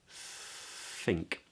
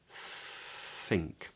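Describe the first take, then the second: First: The word begins with a breathy th sound. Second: The same.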